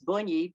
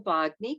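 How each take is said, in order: First: The surname is pronounced in the Italian way. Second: The surname is pronounced in an Americanized way. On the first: It is the original family pronunciation. "It's actually Italian. It's Bugni" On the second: It is adapted so people can pronounce it. "we just make it Americanized"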